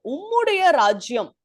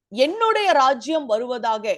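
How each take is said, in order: First: உம்முடைய lifted as the correcting word; firm emphasis on உம்முடைய; stress on உம்முடைய. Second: Emphasis on என்னுடைய; stress on என்னுடைய. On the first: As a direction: punch உம்முடைய in contrast, then fall away. Corrects "my" to "your" kingdom. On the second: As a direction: lean on என்னுடைய, the rejected word. Contrasts rejected wording with actual wording. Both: Shown as a demonstration.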